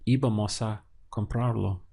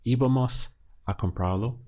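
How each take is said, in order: First: "Íbamos a" run together, then "comprarlo"; more naturally linked. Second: Broken up. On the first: Teacher models natural speech, "Íbamos a" linked as one. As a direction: attach "a" to "Íbamos" without a break. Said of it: "Or, more naturally, you should say". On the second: Teacher shows the broken-up sentence, pausing after "Íbamos". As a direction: pause after "Íbamos", before "a comprarlo". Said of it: "Notice there how I broke it up". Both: Shown as a demonstration.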